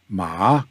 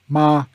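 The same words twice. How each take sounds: First: The pitch rises from middle to high. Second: The pitch stays high and level. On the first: The word means a material like cotton. "Ma is material like cotton" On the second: The word means mother. "Ma is mother"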